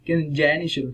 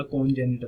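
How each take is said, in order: First: "किनजेनिटल" said ken-JEN-i-shul; correct pronunciation. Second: "कॉन्जेनिटल" said kon-JAY-ni-tal, with an o; "कॉन्जेनिटल" with kon at the start and tal at the end; mispronunciation. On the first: Teacher gives students the right form, correct pronunciation of "किनजेनिटल". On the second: Teacher shows students the common error, mispronounced "कॉन्जेनिटल". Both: Shown as a demonstration. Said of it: "गलत पढ़ते हैं".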